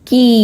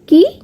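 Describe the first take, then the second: First: The vowel is drawn out a little longer. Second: The vowel is said short. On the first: "কয়ে দীর্ঘই উচ্চারণটা একটু দীর্ঘ হয়" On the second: "কয়ে হস্যই কি"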